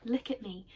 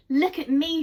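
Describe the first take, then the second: First: Said in the usual way. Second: Higher, louder joyful call; delighted cry. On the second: Acted. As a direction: cry out for everyone to look. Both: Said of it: "she cried".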